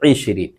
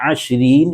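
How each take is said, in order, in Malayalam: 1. ഈ വാക്ക് 'i' സ്വരത്തിലാണ് തുടങ്ങുന്നത്. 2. ഈ വാക്ക് 'a' സ്വരത്തിലാണ് തുടങ്ങുന്നത്. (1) "ഇരുപതിന് ഐശ്വരീൻ എന്നാണ് പറയുക" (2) "ആശ്വരീൻ എന്നും പറയുന്നവരുണ്ട്"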